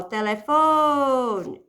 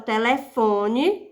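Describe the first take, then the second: First: "telefone" with a very long "fo"; stress on penultimate syllable. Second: Said in the usual way. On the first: Shown as a demonstration. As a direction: stretch out the "fo" in "telefone". ("telefone" alongando bastante o "fo") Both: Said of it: "sílaba tônica é a penúltima".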